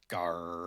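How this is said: It sounds glum and down.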